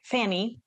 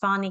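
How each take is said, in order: First: The name is pronounced the English way. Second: The name is pronounced the Hungarian way. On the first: The speaker calls it wrong. "I don't pronounce my name like Fanny" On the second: The speaker calls it right. "that's how I pronounce it"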